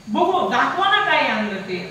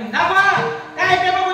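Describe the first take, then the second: First: It is said sweetly and lovingly. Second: It is said angrily, almost shouted.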